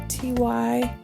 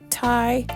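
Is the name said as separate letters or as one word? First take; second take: letters; one word. First: The name is spelled out as two letters. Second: The name is said as a single syllable. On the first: The speaker calls it wrong. "I always want to say T Y" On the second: The speaker calls it right. "you're supposed to say, pronounce it Ty"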